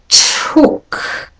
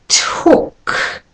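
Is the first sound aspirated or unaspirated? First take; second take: aspirated; aspirated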